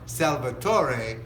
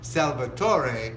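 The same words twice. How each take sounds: First: The name is said with an Italian pronunciation. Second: The name is said with an Italian pronunciation.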